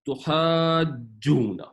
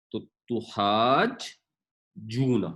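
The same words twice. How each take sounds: First: تحاجونا very slow, the جیم doubled and unbroken; joined smoothly. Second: تحاج and جونا said separately, very slowly; split into two parts. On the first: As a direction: glide تحاج straight into جونا. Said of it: "جیم کی آواز ٹوٹتی نہیں ہے". (تحاجونا کو جوڑ کر آہستہ پڑھیں) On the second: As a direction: break تحاج from جونا with a pause. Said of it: "اس کو جب اکٹھا پڑھیں گے". (تحاج اور جونا الگ الگ آہستہ) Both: Shown as a demonstration.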